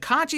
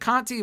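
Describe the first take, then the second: First: The middle consonant is a 'ch' sound. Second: The middle consonant is a 't' sound. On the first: This is how the promotion pronounces it. "they've pronounced it Conchi" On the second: This is how the name is spelled. "it's spelled Conti"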